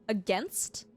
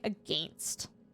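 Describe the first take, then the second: First: It is said without the typical Canadian vowel. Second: It is said with the typical Canadian vowel. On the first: "instead of a, against" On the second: "Canadians say against"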